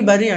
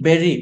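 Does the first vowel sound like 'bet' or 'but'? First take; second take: but; bet. First: The first vowel sounds like 'u' in 'but'. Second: The first vowel sounds like 'e' in 'bet'. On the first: The speaker calls it wrong. "బరీ బరీ అంటారు" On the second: The speaker calls it right. "కాదండి"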